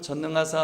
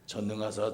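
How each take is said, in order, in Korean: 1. 높고 밝은 목소리로 말합니다. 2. 낮고 진지한 목소리로 말합니다. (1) "도레미파솔 전능하사 하면서 이렇게 좀 밝은 목소리로" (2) "이렇게 하지 않고"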